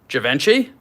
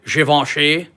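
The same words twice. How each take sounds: First: The name gets a broad American pronunciation. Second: The name gets its original, non-American pronunciation. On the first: The speaker calls it wrong. "the crass American way to pronounce this" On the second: The speaker calls it right. "I have to say it the correct way"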